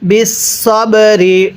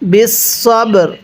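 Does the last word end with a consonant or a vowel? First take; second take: vowel; consonant. First: The last word ends with a short vowel. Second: The last word ends on a consonant. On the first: The recitation continues past this word. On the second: The recitation stops at this word.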